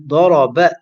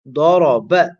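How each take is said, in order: First: The final vowel is cut short. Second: The same.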